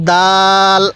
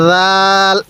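First: Firm "d", then a long level vowel in দাল; hard দাল. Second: Soft buzzing start on রাল, held long; soft যাল. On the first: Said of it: "দালটাও আমরা শক্তভাবে উচ্চারণ করব". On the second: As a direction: say রাল with a soft "dh" as in "this" in place of the first sound. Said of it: "দালটা আমরা নরম করে উচ্চারণ করব". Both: Shown as a demonstration.

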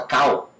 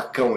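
First: American-accented "cão", said as "cow"; American saying Portuguese "cão" as "cow". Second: Said in the usual way. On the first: Shown as a demonstration. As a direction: lose the nasal in an American "cow". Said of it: "ele fala cow". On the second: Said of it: "Ele não fala".

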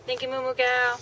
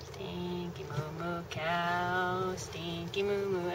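First: Raised, quicker playful call; higher cow call. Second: Slow, softly crooned nickname; drawn-out cow call. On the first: Cow isn't looking up, higher attention-getting call. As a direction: call out to get the cow's attention. Calling again as cow ignores her. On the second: Calling to cows in passing, slow drawn-out croon. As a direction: stretch every word out lazily to the cows. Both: Real, not acted.

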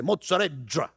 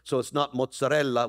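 First: Mozzarella with the double L turned into dr, like mozzadrella; Calabrese dialect. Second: Mozzarella with the double L as plain l; standard mozzarella. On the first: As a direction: say mozzarella the Calabrese way, L's become dr. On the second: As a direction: say mozzarella the Italian way, clear double L. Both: Shown as a demonstration. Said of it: "we take the double L's and make them dr".

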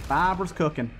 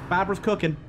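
No difference in how they are said.

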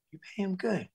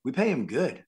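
First: Soft, high-pitched disbelieving question; incredulous echo. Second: Said in the usual way. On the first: Retold or imitated. Waiter echoes film crew's answer, hushed high disbelief. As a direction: echo it back small and high, amazed.

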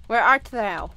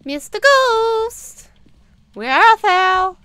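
First: Said in the usual way. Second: Slow, high, loud hammy summons; theatrical calling out. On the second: Pretend. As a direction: call the ghost like a stage actor.

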